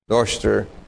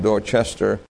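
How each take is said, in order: First: It is said the local English way. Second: It is said the American way. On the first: This is how people in England say it. "in England, Dorchester" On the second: This is how the speaker's own community says it. "or as we would pronounce it"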